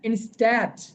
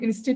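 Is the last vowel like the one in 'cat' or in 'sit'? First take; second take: cat; sit. First: The last vowel sounds like the one in 'cat'. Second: The last vowel sounds like the one in 'sit'. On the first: The speaker calls it right. "এটা কি জানেন?" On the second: The speaker calls it wrong. "সবাই বলেন ইনস্টিট না"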